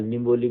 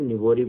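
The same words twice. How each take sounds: First: निबोली said with a clear l: ni-bo-li; with l sound. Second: निबोरी said with a tapped r: ni-bo-ri; with r sound. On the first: Teacher showing pupils the other name, निबोली with l. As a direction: say निबोली, the middle of the last syllable an l, not r. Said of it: "निबोली भी बोलते हैं". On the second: Teacher showing pupils how some say निबोरी, with r. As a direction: say निबोरी with a flapped r in the last syllable. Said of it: "कुछ लोग निबोरी बोलते हैं". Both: Shown as a demonstration.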